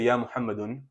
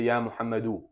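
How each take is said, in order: First: The name ends with an n sound. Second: The name ends with a short vowel. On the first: The speaker calls it wrong. "you don't say ya Muhammadun" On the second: The speaker calls it right. "you say ya Muhammadu, because you make the word light"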